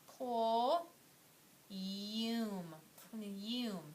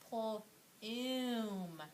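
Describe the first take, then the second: First: The vowel is said like 'yoo'. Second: The vowel is said like 'oo'. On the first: The speaker calls it wrong. "Let's see what sound that long U says" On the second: The speaker calls it right. "let's try the O O that says oo"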